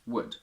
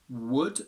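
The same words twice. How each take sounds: First: The word is said with a reduced weak vowel. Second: The word is said with a full strong vowel. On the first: "becomes would" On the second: "with a strong u"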